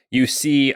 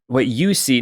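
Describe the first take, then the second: First: Said in the usual way. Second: YOU picked out as the key word; emphasis landing on "you", not on "see"; stress on YOU. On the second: Real, not acted. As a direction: lean on "you", as in you alone. Narrows it to Joff alone.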